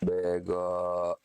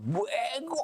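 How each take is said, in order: First: It is said in a gentle, non-attacking tone. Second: It is said in an aggressive, attacking tone.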